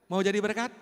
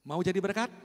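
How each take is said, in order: First: Preacher louder rising appeal; louder repeat. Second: Said in the usual way. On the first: Real, not acted. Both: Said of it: "repeated question to congregation".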